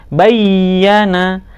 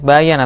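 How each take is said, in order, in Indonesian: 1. Bunyi y-nya ditahan dan digandakan. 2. Bunyi y-nya pendek dan tunggal. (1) "tapi bayyana. Ya-nya dianggap dua atau double" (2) "tidak boleh bayana"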